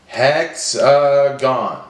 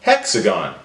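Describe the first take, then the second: First: "Hexagon" slowly, each syllable apart; broken into syllables. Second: Said in the usual way. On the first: Shown as a demonstration. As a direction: stretch "Hexagon" into hex, a, gon. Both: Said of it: "Break it up".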